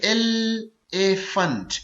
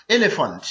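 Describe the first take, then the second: First: elephant drawn out very slowly, ए-लि-फेंट; syllable by syllable. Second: Said in the usual way. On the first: Shown as a demonstration. Teacher demonstrating a three-syllable word, elephant slowly split in three. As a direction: break elephant into three slow beats. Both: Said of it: "elephant three syllable word है".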